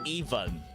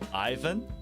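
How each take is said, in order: First: The name is pronounced the Russian way. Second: The name is pronounced the English way. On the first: "according to the uh, Russian, the correct pronunciation of my name is" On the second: "instead of"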